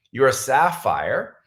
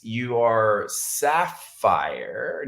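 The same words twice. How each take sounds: First: Said in the usual way. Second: Drawn-out, halting recall of the rank; unsure, searching. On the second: Real, not acted. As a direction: say it slowly, feeling for the word.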